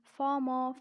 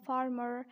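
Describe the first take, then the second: First: British "farmer", loud, with the Rs dropped; British-accent demo of farmer. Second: American "farmer" with the Rs sounded; American-accent demo of farmer. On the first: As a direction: say farmer the British way, open unrhotic ending. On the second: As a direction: say farmer the American way, R-coloured ending. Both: Shown as a demonstration. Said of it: "and the same way".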